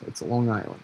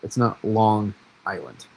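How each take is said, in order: First: "it's Long Island" run together as one word, "Longisland"; "Long Island" slurred local-style into one word. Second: "Long Island" said slowly as two separate words; "it's not Long Island" spelled out word by word. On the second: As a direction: pull "Long" and "Island" apart deliberately. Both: Shown as a demonstration. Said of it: "It's all one word".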